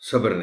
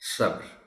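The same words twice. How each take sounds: First: The b has a vowel after it. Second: The b has no vowel after it. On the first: The speaker calls it wrong. "सब्र नहीं" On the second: The speaker calls it right. "इसी तरह"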